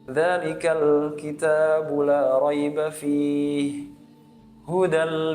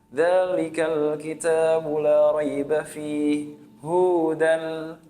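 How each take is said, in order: First: The vowel in hudan is said short. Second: The vowel in hudan is said long. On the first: It means guidance. The speaker calls it right. "Hudan membacanya dengan pendek" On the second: The speaker calls it wrong. "karena kita salah membaca dengan panjang"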